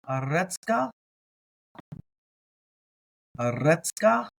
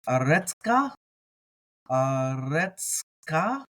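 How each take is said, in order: The two takes are said the same way.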